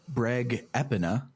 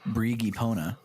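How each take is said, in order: First: The name is said as Breg Epina. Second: The name is said as Brigi Pona. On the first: The speaker calls it right. "let's listen to the Breg Epina" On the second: The speaker calls it wrong. "not the Brigi Pona, as I thought it was going to be pronounced"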